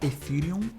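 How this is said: The word has an English pronunciation. This is how English speakers say it. "Em inglês o pessoal pronuncia Ethereum"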